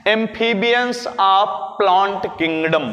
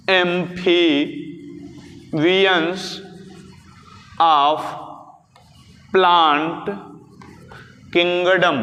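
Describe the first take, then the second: First: Said in the usual way. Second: Long pauses between words, as if dictating; slow dictation. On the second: Shown as a demonstration. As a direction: lower voice, one word at a time. Repeats term slowly for note-taking. (एक-एक शब्द रुक-रुक कर लिखवाते हुए)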